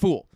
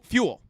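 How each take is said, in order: First: The word has no y sound after the f. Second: The word has a y sound after the f. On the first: The speaker calls it wrong. "not fool" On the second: The speaker calls it right. "Fu- fuel"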